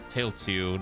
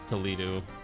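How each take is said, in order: First: The name sounds like 'tail-tew'. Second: The name sounds like 'to-lee-do'. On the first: The speaker calls it right. "It's it's Tailtew" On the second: The speaker calls it wrong. "I've been saying it wrong"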